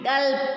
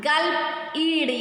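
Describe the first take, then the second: First: Said in the usual way. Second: "Gulp, ed" with a pause between; divided into syllables. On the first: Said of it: "and joining them". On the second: Shown as a demonstration. Teacher dividing the word for pupils, in two beats. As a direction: separate "Gulp" from "ed". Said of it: "when we are dividing the word".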